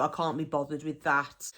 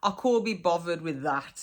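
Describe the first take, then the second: First: Said in the usual way. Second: CAN'T as "cor", BOTHERED with a v, "bovvered". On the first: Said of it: "is another one". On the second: Shown as a demonstration. Teacher gives a dialect example, CAN'T said as "cor". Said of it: "a lot of our words".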